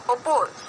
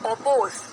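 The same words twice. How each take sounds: The two takes are said the same way.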